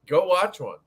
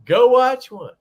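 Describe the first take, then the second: First: Said in the usual way. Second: High, loud repeat of go watch one; emphatic shout. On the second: Real, not acted. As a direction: bark the order as a challenge.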